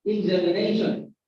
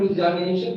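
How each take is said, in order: First: "examination" with a short "e"-like second vowel; correct pronunciation. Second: "examination" with an open "ah" in the second syllable; mispronounced "examination", second vowel opened to "a"; wrong pronunciation. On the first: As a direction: say "examination" as ig-ZEM-i-NAY-shun. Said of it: "but examination". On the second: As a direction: say "examination" as ex-AH-mination. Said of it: "this is not examination". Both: Shown as a demonstration.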